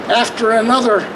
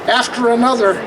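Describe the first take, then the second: No difference in how they are said.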